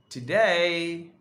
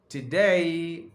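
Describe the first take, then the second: Both takes have the same delivery.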